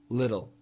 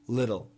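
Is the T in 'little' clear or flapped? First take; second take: flapped; flapped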